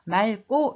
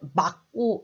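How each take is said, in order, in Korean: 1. 이 겹받침은 ㄹ로 발음합니다. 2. 이 겹받침은 ㄱ으로 발음합니다. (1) "앞자음으로 발음합니다. 그래서 맑고 이렇게 발음을 해요" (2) "누가 오늘 날씨가 맑고 이렇게 발음하는 사람 봤어요?"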